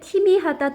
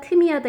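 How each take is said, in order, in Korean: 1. 첫 모음은 입을 옆으로 벌린 ee 소리예요. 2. 첫 모음은 입술을 둥글게 하지 않은 uh 소리예요. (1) "잘못된 발음입니다" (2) "잘못된 발음입니다"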